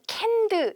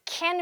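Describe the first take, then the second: First: The final d sound is forced and clearly pronounced. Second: The final d sound is dropped and barely heard. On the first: The speaker calls it wrong. "캔드 이렇게 억지로" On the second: The speaker calls it right. "그냥 자연스럽게"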